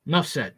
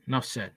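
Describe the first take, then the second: First: Said in the usual way. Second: Quiet. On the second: Real, not acted. Quieter echo of remark.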